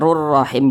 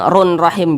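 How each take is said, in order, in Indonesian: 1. Bunyi n menyatu dengan r tanpa dengung sengau. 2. Terdengar bunyi n sengau yang jelas sebelum rahim. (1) "dimasukkan tapi dia tidak didengungkan" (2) "jangan run rahim"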